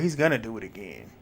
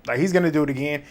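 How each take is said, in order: First: Dropped warning. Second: "gonna" leaned on, voice back up to full; insistent warning with weight on "gonna"; stress on gonna. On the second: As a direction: repeat it and hit "gonna" hard. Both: Shown as a demonstration.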